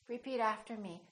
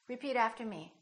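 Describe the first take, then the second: No difference in how they are said.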